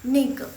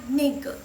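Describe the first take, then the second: Both takes have the same delivery.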